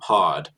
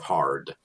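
First: It is said without the R sound. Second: It is said with the R sound.

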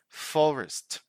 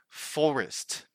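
The two takes are said the same way.

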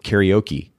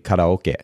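First: It is said with an American pronunciation. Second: It is said with a Japanese pronunciation. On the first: "words that we say in American culture" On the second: "in Japanese is actually"

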